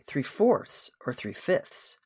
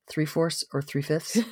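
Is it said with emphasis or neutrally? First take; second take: emphasis; neutrally. First: Some words are said with emphasis. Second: It is said without any emphasis.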